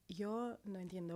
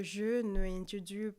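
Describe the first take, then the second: First: Said in the usual way. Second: Slow Spanish in a French accent. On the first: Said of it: "Spanish with a French accent". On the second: Shown as a demonstration. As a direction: say the Spanish as a French speaker would. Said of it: "trying to do Spanish with a French accent".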